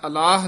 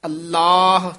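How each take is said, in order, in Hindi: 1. दोहरा 'ल' ढीला बोला जाता है। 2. दोहरा 'ल' कसकर और दृढ़ बोला जाता है। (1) "नहीं कहना है" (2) "थोड़ा जा कस के बोलना है"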